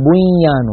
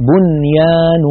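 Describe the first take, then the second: First: بنيان with the nun merged into the ya as biyyan. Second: بنيان with the nun said clearly, no merging. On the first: Teacher shows students the wrong merged بنيان. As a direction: slur بنيان so the nun vanishes. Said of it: "ولا نقول". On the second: Teacher shows students the correct بنيان with a clear nun. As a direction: say بنيان keeping the n distinct. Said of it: "فنقول". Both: Shown as a demonstration.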